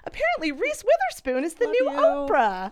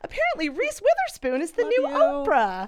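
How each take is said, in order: First: The tone sounds warm and enthusiastic. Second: The same.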